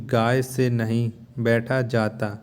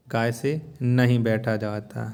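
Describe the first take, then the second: No difference in how they are said.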